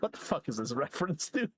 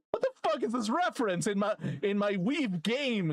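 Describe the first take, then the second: First: Said in the usual way. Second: Indignant outburst. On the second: Pretend. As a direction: wail the complaint in playful indignation. Repeats the rant, escalating.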